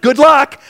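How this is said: It is said in a warm, positive way. The speaker sincerely wishes a good outcome. "you can say that positively"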